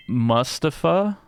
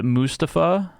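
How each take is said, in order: First: "Mustafa" with first syllable like "must"; drawn-out questioning "Mustafa", short uh first vowel; trying a pronunciation. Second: "Mustafa" with an oo in the first syllable; slow, unsure "Mustafa", first vowel oo; trying a pronunciation. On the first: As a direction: say "Mustafa" as MUSS-ta-fa, higher and slow. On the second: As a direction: say "Mustafa" as MOO-sta-fa, slowly, questioning. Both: Shown as a demonstration. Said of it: "How would you say that?".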